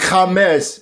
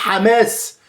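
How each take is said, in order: First: The word begins directly on the vowel, no h. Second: The word begins with a strong breathy h sound. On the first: This is how they say it. "Ils disent Hamas parce qu'ils ne prononcent pas le ha" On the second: This is not how they say it. "Ils ne disent pas Hamas"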